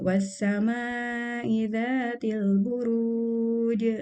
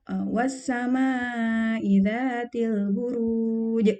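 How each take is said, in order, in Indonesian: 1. Konsonan akhir dilepaskan dengan hentakan. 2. Konsonan akhir dihentikan secara mendadak. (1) "Jadi di dilepaskan saja" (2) "dihentakkan di akhir. Nah, tidak boleh seperti itu karena itu seperti ada hamzah di ujungnya"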